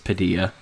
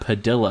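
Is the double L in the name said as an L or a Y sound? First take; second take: Y sound; L sound. First: The double L is said as a Y sound. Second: The double L is said as an L sound. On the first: The speaker calls it right. "like tortilla" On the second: The speaker calls it wrong. "and I called him Padilla"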